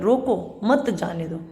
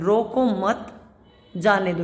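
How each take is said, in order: First: There is a pause after रोको. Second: There is a pause after मत.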